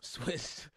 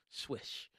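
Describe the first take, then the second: First: Said in the usual way. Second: "Swish" said with sh at the end, under a laugh; Swish, jokingly mispronounced. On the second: Shown as a demonstration. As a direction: jokingly say "Swish" instead of Swiss, breathy and quiet. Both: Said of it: "Let's go with Swish".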